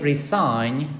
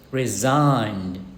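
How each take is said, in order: First: The middle consonant is a hissing s sound. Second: The middle consonant is a buzzing z sound. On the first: The speaker calls it wrong. "Don't say resign" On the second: The speaker calls it right. "but resigned"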